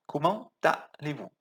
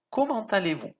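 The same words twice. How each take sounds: First: "Comment allez-vous" said as "comman-t-allez-vous"; liaison with T. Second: "Comment allez-vous" linking the T into "allez"; liaison with T. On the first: Teacher repeating "Comment allez-vous" with the T linked. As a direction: carry the T across into "allez". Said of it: "Um som de T". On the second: Teacher showing students the liaison in "Comment allez-vous". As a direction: join "Comment" to "allez" with a T sound. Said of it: "Junta aqui, tá". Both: Shown as a demonstration.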